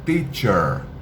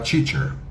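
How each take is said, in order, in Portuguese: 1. O primeiro som é um "t" limpo e nítido. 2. O primeiro som é um "t" com chiado, parecido com "ch". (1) "O T não tem chiado. O T é limpo" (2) "vão falar teacher. Por favor"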